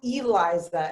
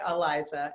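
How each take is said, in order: First: The name begins with an 'ee' vowel sound. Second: The name begins without an 'ee' vowel sound. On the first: The speaker calls it right. "it is Eliza" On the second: The speaker calls it wrong. "most people say Eliza"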